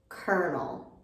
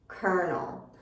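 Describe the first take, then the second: The two takes are said the same way.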